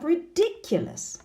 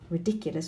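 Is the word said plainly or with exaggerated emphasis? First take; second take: exaggerated emphasis; plainly. First: It is said with exaggerated intonation and stress. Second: It is said plainly with ordinary intonation.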